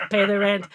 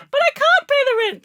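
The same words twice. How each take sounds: First: Menacing old cartoon villain demand; mustache twirling villain. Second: Very high, loud wailing damsel; damsel in distress. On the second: Pretend. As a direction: shriek like a melodrama heroine. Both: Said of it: "you do it again".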